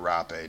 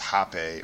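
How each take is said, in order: First: The word begins with an R sound. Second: The word begins with an H sound.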